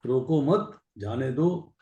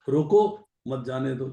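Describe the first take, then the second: First: रोको मत as one rising unit, then जाने दो; pause after मत. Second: रोको set apart, मत leaning into जाने दो; stand-alone रोको, then मत जाने दो together; pause after रोको. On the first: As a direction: join मत to रोको, break before जाने दो. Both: Shown as a demonstration. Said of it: "दो तरीके से बोले".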